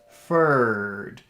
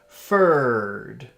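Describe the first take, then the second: First: The word is said with lots of air pushed out. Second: The word is said with lots of air pushed out.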